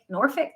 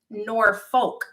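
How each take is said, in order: First: The name is pronounced the local way. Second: The name is pronounced as it is spelled. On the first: "That's how they say here" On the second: "is the way it's spelt out"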